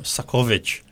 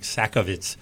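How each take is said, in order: First: The name is said with a Polish pronunciation. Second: The name is said with an English pronunciation.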